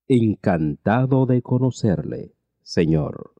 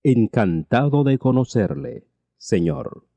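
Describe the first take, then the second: No difference in how they are said.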